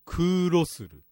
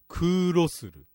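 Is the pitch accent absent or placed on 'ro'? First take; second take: on ro; on ro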